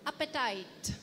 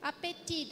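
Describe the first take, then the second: First: "Appetite" said the English way, AP-uh-tite; the English word next to the French one; English pronunciation. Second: "Appétit" the French way, ah-pay-TEE; the French word before its English cousin; softly modelling the French word; French pronunciation. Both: Shown as a demonstration. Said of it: "that sounds like English".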